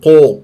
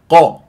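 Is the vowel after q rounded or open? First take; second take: rounded; open. First: The vowel after q sounds rounded like u. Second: The vowel after q sounds open like a. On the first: The speaker calls it wrong. "تقول قو ... انت شلون تجيب لي ضمة؟ غلط" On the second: The speaker calls it right. "مفتوحة"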